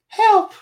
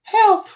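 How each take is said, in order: First: It is said in a put-on little boy voice. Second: The same.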